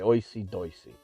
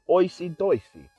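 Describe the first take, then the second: First: It is said in his plain voice. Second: It is said in a New York accent.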